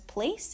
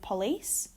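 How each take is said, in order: First: The first vowel is reduced and weak. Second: The first vowel is full and clear. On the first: "Vowel reduction" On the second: "instead of"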